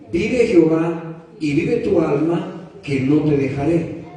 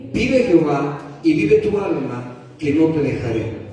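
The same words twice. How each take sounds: No difference in how they are said.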